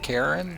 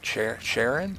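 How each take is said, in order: First: The name begins with a hard k sound. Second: The name begins with an sh sound. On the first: This is the speaker's own way of saying the name. "I pronounce it" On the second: This is how the game says the name. "The game pronounces it"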